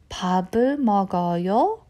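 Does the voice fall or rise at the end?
rises. The voice rises at the end. The speaker asks whether the listener is eating. "let's say my tone goes up at the end"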